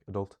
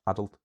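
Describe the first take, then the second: First: "adult" stressed on the second syllable; light "a", weight on DULT in "adult". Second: "adult" stressed on the first syllable. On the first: Teacher giving the contrasting example, "adult" with second-syllable stress. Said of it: "stress on the second syllable". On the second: Teacher giving an example, "adult" with first-syllable stress. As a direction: lean on AD in "adult", short ending. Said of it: "stress on the first syllable". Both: Shown as a demonstration.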